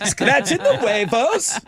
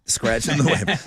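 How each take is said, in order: First: Put-on Irish leprechaun accent, slow and high. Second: Said in the usual way. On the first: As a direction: drawl it like a cheeky leprechaun. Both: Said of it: "gotta be done in a leprechaun voice".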